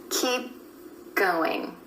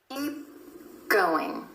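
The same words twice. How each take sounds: The two takes are said the same way.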